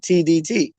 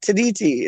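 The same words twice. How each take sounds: First: Said in the usual way. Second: T D T run together as one posh word; posh pronunciation. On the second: Shown as a demonstration. Host defends the nickname, T D T said as a posh word. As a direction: say T D T like "tideetee". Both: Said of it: "It's a posh way of saying T D T".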